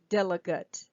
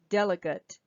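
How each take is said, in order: First: The last vowel is a reduced schwa. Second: The last vowel is a reduced schwa.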